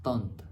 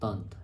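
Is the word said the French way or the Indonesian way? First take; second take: French; French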